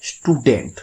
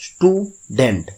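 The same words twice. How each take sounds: First: Said in the usual way. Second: student slowly broken into stew and dent; teacher's slow two-beat student, stew then dent; split in two syllables. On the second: Shown as a demonstration. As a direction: pause inside student after stew. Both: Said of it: "দুভাবে ভেঙে উচ্চারণ করতে হচ্ছে".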